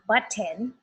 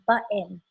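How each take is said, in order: First: It is said with a British accent. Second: It is said with an American accent. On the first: "people from England say button" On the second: "people from America say button"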